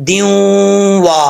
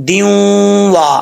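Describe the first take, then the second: Both takes have the same delivery.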